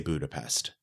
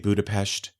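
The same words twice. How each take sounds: First: The name has an anglicized English pronunciation. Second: The name has a native Hungarian-style pronunciation. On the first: The familiar English name is used. "I'm going to say Budapest" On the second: The native local name is used. "I'm not going to say Budapest"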